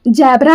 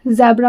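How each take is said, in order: First: The word begins with a j sound. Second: The word begins with a z sound. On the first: The speaker calls it wrong. "जेड for जैबरा नहीं होता" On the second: The speaker calls it right. "जेड for जैबरा होता है ... उसको हम ज pronounce करते हैं"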